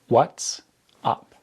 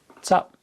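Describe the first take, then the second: First: The two words are said separately and carefully. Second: The two words run together into one contracted unit. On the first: The speaker calls it wrong. "this is not how fluent speakers actually pronounce this" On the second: The speaker calls it right. "Very, very contracted and put together"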